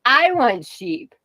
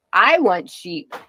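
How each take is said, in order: First: I want sheep drawn out slowly, pitch lifted; slow pleading wail on I want sheep; slow whine. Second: Slow. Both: Real, not acted. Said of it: "hardcore sheep farming problems".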